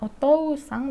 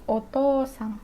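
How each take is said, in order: First: The o vowel is short. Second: The o vowel is held long. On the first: The speaker calls it wrong. "bukan otosang" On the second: The speaker calls it right. "tapi otosang"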